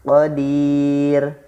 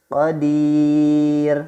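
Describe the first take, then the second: No difference in how they are said.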